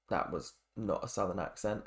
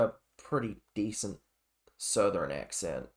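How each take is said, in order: First: Said in the usual way. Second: Bad Southern accent. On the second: Shown as a demonstration. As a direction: say it in a deliberately poor Southern American accent.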